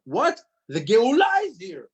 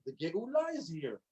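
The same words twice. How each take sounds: First: High, loud burst of disbelief; acted amazed outcry, pitched way up; astonished excitement. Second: Suddenly soft, awed repeat; much softer, almost to oneself; hushed wonder. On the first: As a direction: exclaim it like sudden amazing news. Acts astonished realization of redemption. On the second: Acted. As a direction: let the amazing news sink in quietly.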